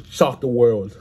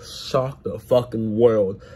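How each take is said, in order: First: Said in the usual way. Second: "Shock the fucking world" said slowly, each word landing; slow emphatic. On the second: Real, not acted. Hype prediction, repeated emphatically.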